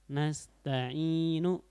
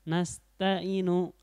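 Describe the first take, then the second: First: The long vowel is held for two beats. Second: The long vowel is held for one beat. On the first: The speaker calls it right. "itu matobi'inya" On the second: The speaker calls it wrong. "itu kurang ya. Itu cuman satu harokat ya"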